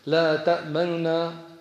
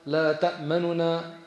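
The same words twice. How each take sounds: Both takes have the same delivery.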